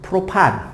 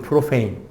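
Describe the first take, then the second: First: The word ends with a 'pan' sound. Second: The word ends with a 'pein' sound. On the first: This is the older way of naming it. "우리 부모님 나이 때에 더 통용되는 단어" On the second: This is the current way of naming it. "요즘식 이름으로 발음하니까"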